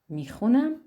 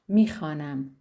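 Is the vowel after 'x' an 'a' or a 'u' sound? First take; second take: u; a. First: The vowel after 'x' is a rounded 'u' sound. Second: The vowel after 'x' is an open 'a' sound. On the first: This is the everyday spoken form. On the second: This is the standard written form.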